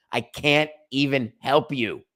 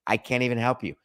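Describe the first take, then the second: First: "can't" hit hard and slow; exasperated slow repeat, stressing "can't"; slow emphatic repeat. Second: Said in the usual way. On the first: Shown as a demonstration. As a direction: drag out "I can't even help you" for emphasis.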